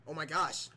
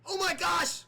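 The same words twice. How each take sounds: First: Said in the usual way. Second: High, loud burst of shock; high, loud oh my gosh as a move lands; excited gasp. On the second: Pretend. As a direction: blurt it out in surprise, pitched way up. Shocked commentator reacts to move.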